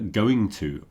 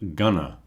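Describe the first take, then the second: First: Both words are said fully and separately. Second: The words are reduced and run together. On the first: "you often hear going to pronounced gonna" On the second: "pronounced gonna"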